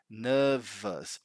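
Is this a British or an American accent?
British. The word is said in a British accent.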